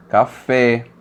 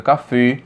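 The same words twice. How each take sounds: First: "café" ending in an open é, as in "pé"; slow "café" with a wide-open final e; open vowel. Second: "café" mispronounced with a closed final ê; "café" said as cafê, ending in a closed e; closed vowel. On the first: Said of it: "a vogal tônica possui um timbre aberto". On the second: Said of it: "colocar o acento circunflexo". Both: Shown as a demonstration.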